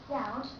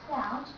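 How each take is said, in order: No difference in how they are said.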